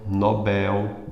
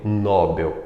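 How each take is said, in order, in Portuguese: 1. A tônica está na última sílaba. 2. A tônica está na primeira sílaba. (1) "Nobel mais forte é o Bel" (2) "E não"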